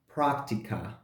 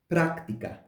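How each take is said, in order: First: The r is a soft English-like approximant. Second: The r is a trilled Spanish r. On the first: The speaker calls it wrong. "It's not practica" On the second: The speaker calls it right. "but práctica"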